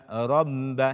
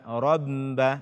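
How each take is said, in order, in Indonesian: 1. Huruf b ganda itu dikeluarkan lewat hidung. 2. Huruf b ganda itu dikeluarkan lewat hidung.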